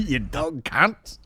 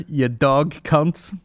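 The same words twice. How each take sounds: First: Slow, high mock Australian drawl; mock Aussie. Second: Slow, louder mock Australian; mock Aussie. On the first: Quoting the Aussie lad to his cohost, slowly, with a laugh. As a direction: savour the insult like the Aussie. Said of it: "imitating the Aussie". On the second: Proposing the podcast name in a slow mock Aussie voice. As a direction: announce it as a show title. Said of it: "There's the name of the podcast".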